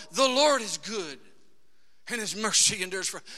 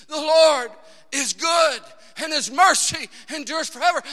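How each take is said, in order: First: Said in the usual way. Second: "The Lord is good" shouted louder and higher; loud, high repeat of "The Lord is good and his mercy endures forever"; shouted praise. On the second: Shown as a demonstration. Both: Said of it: "repeating it over and over".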